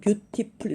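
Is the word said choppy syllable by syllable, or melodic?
choppy. Each syllable is clipped and evenly pitched. "우리는 beautiful 이러잖아요"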